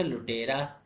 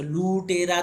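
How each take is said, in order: First: "लुटेरा" with a short u; correct short-vowel pronunciation. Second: "लूटेरा" with a long drawn ū; wrong long-vowel pronunciation. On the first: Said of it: "pronunciation के हिसाब से लुटेरा". ("लुटेरा" में छोटा उ) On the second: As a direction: stretch the first vowel of "लूटेरा". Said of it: "लूटेरा तो पढ़ेंगे नहीं". ("लूटेरा" में लंबा ऊ खींचकर) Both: Shown as a demonstration.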